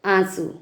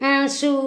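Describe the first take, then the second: First: आंसू with nasalized first vowel; nasal vowel in आंसू, no full n; anunasika pronunciation. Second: आंसू with a full n sound; over-nasalize आंसू into an anusvara; hard n put into आंसू; wrong anusvara pronunciation. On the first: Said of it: "अनुनासिक है". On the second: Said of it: "अनुस्वार नहीं है". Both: Shown as a demonstration.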